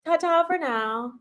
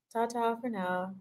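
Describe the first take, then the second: First: "Ta-ta for now" sung out high with a lilting rise; bright lilting "Ta-ta for now"; singsong goodbye. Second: Quiet trailing "Ta-ta for now"; soft goodbye. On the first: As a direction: toss off "Ta-ta for now" high and cheery like a cartoon farewell. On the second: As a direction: let "Ta-ta for now" fall away as a soft aside. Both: Shown as a demonstration. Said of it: "playful goodbye repeated".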